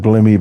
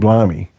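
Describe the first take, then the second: First: The first vowel is a short 'ih' sound. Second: The first vowel is a long 'eye' sound. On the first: The speaker calls it wrong. "Don't say blimmy" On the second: The speaker calls it right. "But blimey"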